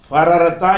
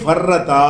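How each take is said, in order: First: Two r sounds are separated by a vowel. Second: Two r sounds merge into one doubled r. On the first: The speaker calls it wrong. "ஃபரரத்தா என்று சொல்லாமல்" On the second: The speaker calls it right. "ஒரு ரேயை காலி பண்ணிட்டு அதை சத்து பண்ணி"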